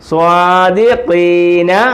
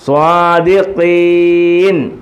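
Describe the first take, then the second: First: The word ends with a short final vowel. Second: The word ends on a bare n sound. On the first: The reading continues without stopping. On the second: The reading stops at this word.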